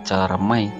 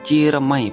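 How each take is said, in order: First: The first syllable has a weak 'e' vowel. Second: The first syllable has an 'ee' vowel. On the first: This is the original name. The speaker calls it right. "padahal Ceremai" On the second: This is the name most people assume. The speaker calls it wrong. "kebanyakan orang mikir namanya Ciremai"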